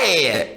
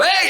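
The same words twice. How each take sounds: First: The sound is soft, small and gentle. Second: The sound is pushed and tight with force. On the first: The speaker calls it right. "He was real gentle" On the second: The speaker calls it wrong. "He didn't go, hey, hey"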